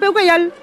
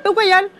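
No difference in how they are said.

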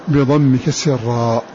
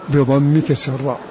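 Both takes have the same delivery.

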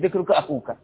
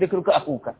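First: The second word has a long 'oo' vowel. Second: The second word has a long 'oo' vowel.

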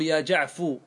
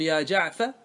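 First: The name ends with a short u vowel. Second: The name ends with a short a vowel. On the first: The dropped letter is treated as gone entirely. "هذا على لغة من لا ينتظر" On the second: The listener still expects the dropped letter. "هذا على لغة من ينتظر"

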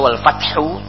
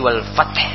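First: The phrase ends with a final vowel sound. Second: The phrase ends on a bare consonant. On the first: This is the full original form of the word. "Aslinya wal fathu" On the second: This is the form used when stopping at the end. "tapi hu-nya tidak dibaca menjadi wal fath"

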